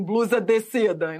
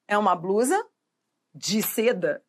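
First: "blusa de seda" with a full, over-careful "dê"; tense pronunciation. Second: "de" in "blusa de seda" reduced to "dji"; relaxed pronunciation. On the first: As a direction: force a closed e in "de", as if unable to relax. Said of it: "Não pode ficar tensa, assim". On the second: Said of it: "numa boa, relaxe e fale". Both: Shown as a demonstration.

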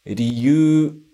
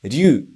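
First: "Ryu" said ri-yu-u, sounds separate; teacher models "Ryu" with syllables apart; uncontracted riyuu. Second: "ryu" as one sound, ryu-u; teacher models "ryu" in one glide; contracted ryuu. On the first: Teacher showing reason word: "Ryu" as ri-yu-u. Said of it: "sem a contração". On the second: Teacher showing dragon word: "ryu" as one contracted sound. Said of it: "E a segunda palavra é". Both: Shown as a demonstration.

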